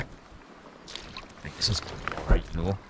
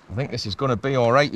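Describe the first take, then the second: First: Soft, breathy whisper to himself; whispered aside. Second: Said in the usual way. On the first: Real, not acted. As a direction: hush it, half to yourself. Quiet aside while landing fish.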